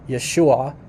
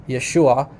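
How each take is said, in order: Both takes have the same delivery.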